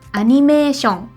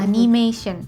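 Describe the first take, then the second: First: It is pronounced with Japanese sounds. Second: It is pronounced with English sounds. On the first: "Kalau misalnya dalam bahasa Jepang tuh" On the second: "diambil dari bahasa serapan bahasa Inggris"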